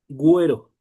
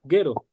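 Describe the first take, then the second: First: A clear w sound follows the g. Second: The g runs straight into the e sound. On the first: "la U adquiere su propio sonido" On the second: "Se lee Gero"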